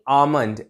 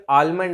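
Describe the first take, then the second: First: आमंड with no L sound; correct almond pronunciation. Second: आलमंड with the L sounded; wrong almond pronunciation. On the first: Teacher showing how it should be, silent L. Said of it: "ऐसे होगी". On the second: Teacher rejecting the common mistake, L sounded. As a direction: put an audible L in आलमंड. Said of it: "आलमंड नहीं". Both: Shown as a demonstration.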